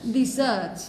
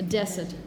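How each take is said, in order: First: The stress is on the second syllable. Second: The stress is on the first syllable. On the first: To abandon the army. "The stress is on the second syllable" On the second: A dry, barren place. "the desert is a noun, it's a place"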